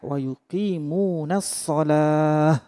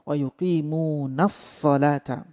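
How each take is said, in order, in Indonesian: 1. Kata terakhir berakhir dengan bunyi 'h'. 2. Kata terakhir berakhir dengan suku kata 'ta' yang utuh.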